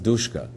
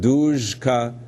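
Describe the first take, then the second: First: The consonant before k is a voiceless sh. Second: The consonant before k is a voiced zh.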